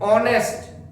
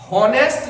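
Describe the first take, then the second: First: The word begins directly with a vowel sound. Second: The word begins with an audible h sound. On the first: The speaker calls it right. "ऑनेस्ट पढ़ते हैं इसको" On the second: The speaker calls it wrong. "ऐसे ही हॉनेस्ट नहीं पढ़ते"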